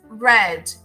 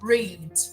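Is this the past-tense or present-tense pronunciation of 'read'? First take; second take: past; present. First: The word has its past-tense pronunciation. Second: The word has its present-tense pronunciation. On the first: The action happened before now. "In the past" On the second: The action happens now or in general. "In the present, or infinitive"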